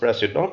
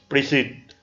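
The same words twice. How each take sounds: First: The final ent ending is pronounced. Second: The final ent ending is silent. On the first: It is the title of president. "President indicates uh, the title president" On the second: It is a verb meaning presiding over something. "the ent is silent"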